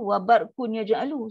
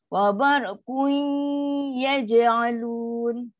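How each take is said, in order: First: The n is pronounced clearly without nasal merging. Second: The n partly merges into y with nasalization. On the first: The speaker calls it wrong. "kenapa awak baca macam tu? ... Sedangkan sini dengung" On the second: The speaker calls it right. "fifty percent dengung, fifty percent huruf yang dijumpa tu"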